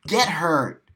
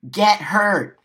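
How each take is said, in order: First: Said in the usual way. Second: "Get" hit hard and loud, pitch higher; louder repeat. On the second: Shown as a demonstration. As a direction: shout the second "Get hurt" at them.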